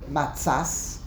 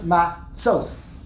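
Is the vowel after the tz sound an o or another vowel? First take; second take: another vowel; o. First: The vowel after tz is not an o. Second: The vowel after tz is an o. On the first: The speaker calls it wrong. "is not matzas" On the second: The speaker calls it right. "it's matzos"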